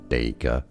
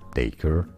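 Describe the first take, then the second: First: It is said in a British accent. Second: It is said in an American accent. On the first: "in British English it is said as dacre" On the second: "or in American English"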